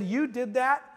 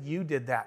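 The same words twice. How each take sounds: First: "You did that" as a high question, rising on "that"; imitating amazed employees, pitched up at the end; surprised question. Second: "You did that" low and soft, falling on "that"; firm statement. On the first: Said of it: "they were really excited". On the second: Retold or imitated. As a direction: quietly hand over the credit, pitch dropping. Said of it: "I said".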